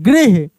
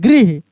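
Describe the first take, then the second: Both takes have the same delivery.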